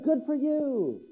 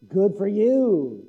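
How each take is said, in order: First: It is said in a warm, sincere tone. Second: It is said in a dismissive, sarcastic tone. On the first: Genuine praise is offered. The speaker calls it right. "good for you is a great thing" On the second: The praise is mocking rather than genuine. The speaker calls it wrong. "But not, good for you. That's not so good"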